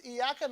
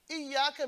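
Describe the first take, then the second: First: Tag "إياك" with a short single y; light single y in "إياك"; undoubled ya. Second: "إياك" with held double y, higher; stressed, doubled y in "إياك"; shadda on ya. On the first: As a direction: say "إياك" without holding the y. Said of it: "means light". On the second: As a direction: press the y in "إياك". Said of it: "means only you". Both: Shown as a demonstration.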